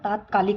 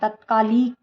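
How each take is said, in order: First: The first vowel is long. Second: The first vowel is short. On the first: The speaker calls it right. "तात्कालिक होता है" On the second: The speaker calls it wrong. "तत्कालिक नहीं होता है"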